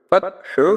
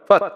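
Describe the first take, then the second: First: The word ends with a short u vowel. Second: The word ends on a bare consonant. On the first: The word is read without stopping on it. "আর হা পেশ হু" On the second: The reader stops on this word. "ওয়াকফ করলে হয় ফাত"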